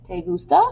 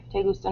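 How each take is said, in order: First: "¿Te gusta?" with a high rising question lilt. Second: Said in the usual way. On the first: Shown as a demonstration. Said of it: "The way you say it, we know it's a question". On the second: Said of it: "normally means "you like".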